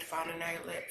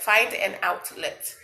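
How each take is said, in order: First: Said in the usual way. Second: Find an outlet, louder and slower; emphatic louder repeat. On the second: Real, not acted. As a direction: stress the repeat like a coach.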